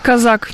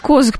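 First: The surname is said the Russian way. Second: The surname is said the Ukrainian way. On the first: "по-русски Казак" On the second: "По-украински Козак"

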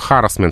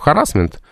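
First: The stress is on the first syllable. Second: The stress is on a later syllable. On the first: This is the stress of the word as originally borrowed. "что харассмент" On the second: This is the stress the word has in Russian now. "в русском языке превратился в харассмент"

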